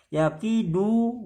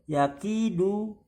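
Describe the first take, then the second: Both takes have the same delivery.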